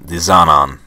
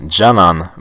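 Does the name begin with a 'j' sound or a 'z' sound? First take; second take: z sound; j sound. First: The name begins with a 'z' sound. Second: The name begins with a 'j' sound. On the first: The speaker calls it wrong. "not Zanan. that's the way I was saying it before" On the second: The speaker calls it right. "it's pronounced"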